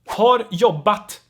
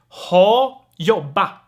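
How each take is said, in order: First: The final r and t are pronounced. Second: The final r and t are dropped.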